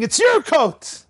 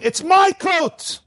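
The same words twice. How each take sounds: First: Slow, high mock yell of the father; the father's hammed-up slow cry; retold yell. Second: Slow, high mock yell of the father; father's hammed-up slow cry; retold yell. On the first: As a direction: drag it out as if pleading to give. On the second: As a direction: drag it out like a stubborn father. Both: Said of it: "The father was screaming".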